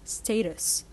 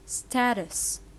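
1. لكنة بريطانية، الحرف المتحرك الأول مثل 'stay'. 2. لكنة أمريكية، الحرف المتحرك الأول مثل 'sat'. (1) "بتتنطق في اليو كي بريطانيا" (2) "في اليو اس اي"

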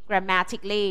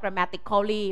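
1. พยางค์ 'al' ก่อน '-ly' ไม่ออกเสียง 2. พยางค์ 'al' ก่อน '-ly' ออกเสียง (1) "all ไม่ออกเสียง" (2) "ไม่อ่านว่า"

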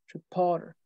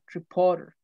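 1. El acento está en la sílaba del medio. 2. El acento está en la sílaba del medio.

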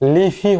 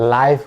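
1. এতে ছোট 'i' আছে এবং শেষে একটি স্বরধ্বনি আছে। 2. এতে 'ai' স্বরধ্বনি আছে এবং এটি f দিয়ে শেষ হয়। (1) "কেন লিফি হবে না" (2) "লাইফ হবে"

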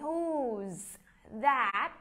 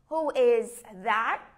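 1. Động từ được rút gọn thành một âm tiết. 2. Động từ được đọc như một từ riêng. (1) "mình nói nhanh đi thì mình rút gọn cái động từ to be lại" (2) "mình có thể nói một câu dài"

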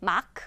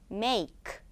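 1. 모음은 짧은 'ah' 소리입니다. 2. 모음은 긴 'ay' 소리입니다. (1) "마크 아니야" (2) "여기서 a는 긴 a예요"

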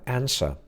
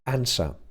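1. Akcent brytyjski, z pominiętym końcowym r. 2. Akcent brytyjski, z pominiętym końcowym r.

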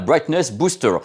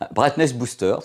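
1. Il se dit avec un essai d'accent anglais. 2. Il se dit avec un accent français normal. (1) "j'ai un accent de merde" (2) "Je préfère le dire comme ça, parce que c'est plus simple"

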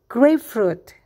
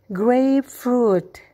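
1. Kata ini diucapkan dengan cepat. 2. Kata ini diucapkan dengan lambat. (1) "Sekarang kita lakukan lebih cepat" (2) "Perlahan kita berlatih ya"

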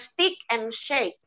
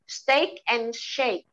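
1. Steak punya vokal yang berbeda, tidak berima dengan shake. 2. Steak punya vokal 'ay' yang berima dengan shake. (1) "Jadi bukan steak and shake" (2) "bunyinya rhyming"

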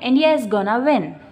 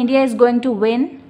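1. 'going to' छोटा होकर एक शब्द जैसा बोला जाता है। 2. 'going to' को दो पूरे शब्दों की तरह बोला जाता है। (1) "शॉर्ट में" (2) "अगर हम चाहें तो बोल सकते हैं"

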